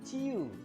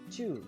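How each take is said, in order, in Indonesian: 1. Diucapkan sebagai dua suku kata terpisah. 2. Diucapkan sebagai satu suku kata. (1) "bukan ciu" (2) "tapi cu"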